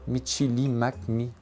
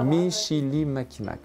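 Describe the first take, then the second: First: The name ends with a 'mi' syllable. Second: The name ends with a 'mac' syllable. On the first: The speaker calls it wrong. "non, je ne l'ai pas prononcé comme il faut" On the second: The speaker calls it right. "OK, parfait"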